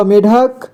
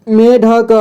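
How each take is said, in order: First: Said in the usual way. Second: "मेढक" split as me-dha-ka; beginner's reading of "मेढक" as me-dha-ka; sounded out letter by letter. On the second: Shown as a demonstration. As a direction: voice each syllable of "मेढक", final ka included. Teacher sounds out, then reads whole.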